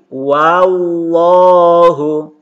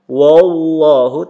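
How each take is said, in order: First: The first syllable is a plain, open wa. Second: The first syllable is heavy, like wo. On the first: The speaker calls it right. "tapi wallahu" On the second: The speaker calls it wrong. "jangan dibaca wo"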